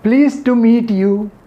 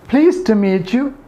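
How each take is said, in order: First: The T and Y stay separate sounds. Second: The T and Y blend into a CH sound. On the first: The speaker calls it wrong. "instead of" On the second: The speaker calls it right. "instead of"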